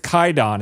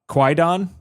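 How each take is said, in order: First: No w sound follows the k. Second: A w sound follows the k. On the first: The speaker calls it right. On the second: The speaker calls it wrong.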